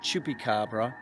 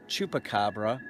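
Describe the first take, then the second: First: It is said with a local pronunciation. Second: It is said with a Puerto Rican pronunciation. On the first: "That's how we pronounce it here" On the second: "or as they say in Puerto Rico"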